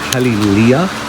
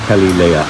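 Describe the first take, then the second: First: The last part sounds like 'lee-uh'. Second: The last part sounds like 'lay-uh'. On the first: "Some people call it, say Kelly Leah" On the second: "and others say Kelly Leia. I say Leia"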